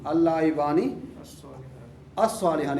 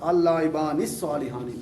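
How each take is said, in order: First: The two words are said separately, vowel kept. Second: The two words are linked, vowel dropped.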